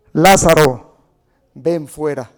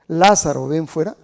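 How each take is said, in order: First: Booming command to the dead man; loud call. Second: Firm raised command; loud call. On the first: Preacher booming Jesus's call to Lazarus. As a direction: call him out of the tomb at full voice. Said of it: "Clamó a gran voz". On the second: Preacher repeating Jesus's shout to Lazarus. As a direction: call Lazarus out again, strong. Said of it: "¿Saben por qué le gritó así?". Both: Acted.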